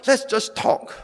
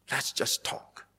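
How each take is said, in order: First: Said in the usual way. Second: Soft breathy mocking repeat of "Let's"; mocking whisper. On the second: Shown as a demonstration. Preacher mocking the pastor's email in a hushed whisper. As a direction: hush it like a sly aside.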